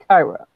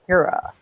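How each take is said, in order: First: The first syllable has an 'eye' vowel. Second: The first syllable has an 'ee' vowel. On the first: This is how people mispronounce the name. The speaker calls it wrong. "not Kyra" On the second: This is the name's real pronunciation. The speaker calls it right. "It's Kira"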